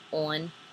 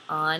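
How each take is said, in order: First: The word is said plainly in the standard way. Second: The word is said quickly in her local way. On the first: "instead of just on" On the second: "whenever I say it fast, it kind of sounds like on"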